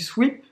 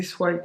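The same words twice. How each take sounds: First: Sweep, long ee as in seed. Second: Swipe said with an eye sound; swipe, rhymes with pipe. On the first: To viewers, correct sweep with a long ee. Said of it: "on dit sweep". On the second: To viewers, her wrong swipe with an eye sound. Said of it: "je disais swipe". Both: Shown as a demonstration.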